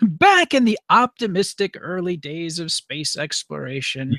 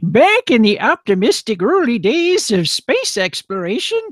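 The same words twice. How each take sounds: First: It is said in his normal voice. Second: It is said in an old man voice.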